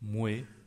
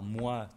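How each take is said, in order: First: The vowel is pronounced like 'weh'. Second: The vowel is pronounced like 'wa'. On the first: This is an old form kept in Quebec. "l'ancienne prononciation" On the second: This is the standard modern form. "prononciations standards"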